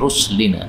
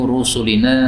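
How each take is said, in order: First: No vowel is heard between s and l. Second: A vowel is heard between s and l.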